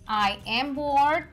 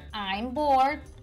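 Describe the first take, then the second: First: The words are said fully as I am. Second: The words are contracted into one syllable, I'm.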